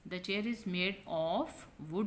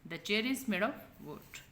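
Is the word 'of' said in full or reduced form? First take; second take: full; reduced. First: The word 'of' is said fully and clearly. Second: The word 'of' is said short and weak. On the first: The speaker calls it wrong. "नहीं कहेंगे" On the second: The speaker calls it right. "वीक form से पढ़ना है"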